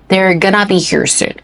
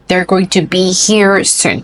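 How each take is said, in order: First: Going to is said fast, reduced to gonna. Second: Going to is said in full, unreduced.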